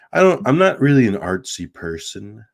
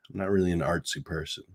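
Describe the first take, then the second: First: Said in the usual way. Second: Faster, softer throwaway repeat; rushed, dropped-down repeat; quick quiet aside. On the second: Real, not acted. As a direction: mutter it again quickly to yourself.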